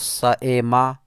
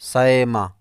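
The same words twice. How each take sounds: First: The middle sound is a full glottal stop. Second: The middle sound lies between glottal stop and y. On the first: The speaker calls it wrong. "ना तो सएमा बिल्कुल हमज़ा करके" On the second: The speaker calls it right. "बल्कि दरमियानी"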